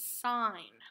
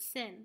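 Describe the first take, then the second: First: The vowel is long, like in 'sign'. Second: The vowel is short, like in 'sin'. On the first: The speaker calls it right. "This is sign" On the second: The speaker calls it wrong. "You do not pronounce it sin"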